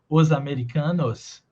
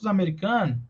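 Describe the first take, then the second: First: Each word is articulated separately and carefully. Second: The words run together into one linked unit. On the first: This is the careful, fully articulated form. "ao invés de falar os americanos" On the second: This is how people naturally speak. "eu conversei com os americanos"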